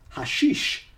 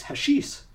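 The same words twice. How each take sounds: First: "hashish" ending in sh, hah-SHEESH; corrected pronunciation. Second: "hashish" ending in a plain s; first pronunciation. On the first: Host corrects the reading, "hashish" said hah-SHEESH. Repeats the word with corrected sound. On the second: Reading of Himalayan villagers, "hashish" said hash-EES. Says word, then repeats it corrected. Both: Real, not acted.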